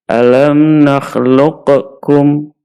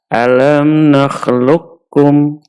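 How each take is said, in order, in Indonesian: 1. Q dilafalkan dengan pantulan sebelum K. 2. Q menyatu dengan bunyi K yang ditasydid. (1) "jangan sampai kita membaca ... berarti qafnya mantul" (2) "qafnya kita masukkan ke huruf kaf, kemudian kafnya kita tasydid"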